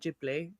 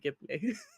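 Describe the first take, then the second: First: The word begins with a J sound. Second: The word begins with a hard G. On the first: This is how the Japanese creator says it. "like with a j sound" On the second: This follows the original Italian word. "it is from an Italian word, so it should be Ghibli"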